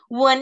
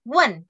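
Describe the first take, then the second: First: The syllable has a low dipping tone. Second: The syllable has a sharp falling tone. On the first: It means to kiss. "wen itu nada ketiga" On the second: It means to ask. "wen tuh nada keempat tanya"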